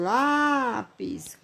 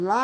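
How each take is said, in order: First: "lápis" with a lengthened "lá" and short "pis"; "lápis" as "LÁÁ-pis", in one piece; stress on first syllable. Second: "lápis" with "lá" held extremely long, "pis" short; "lápis" as "LÁÁÁÁÁ... pis"; exaggerated first-syllable stress. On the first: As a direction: lean on the "lá" of "lápis". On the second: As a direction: hold the "lá" of "lápis" for seconds, then drop "pis". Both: Shown as a demonstration. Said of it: "que é mais forte".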